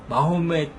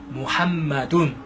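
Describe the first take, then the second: First: The name is said as Mahomet. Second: The name is said as Muhammadun. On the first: This is the form that came through English. The speaker calls it wrong. "역시 잘못된 표현입니다" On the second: This is the original Arabic form. The speaker calls it right. "아랍어에 하면 무함마둔"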